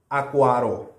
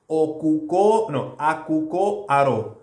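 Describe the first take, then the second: First: The words are said quickly and run together. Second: Both words are said fully and separately.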